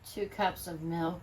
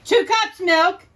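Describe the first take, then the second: First: It is said softly, in a normal voice. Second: It is said loudly, in a husband voice.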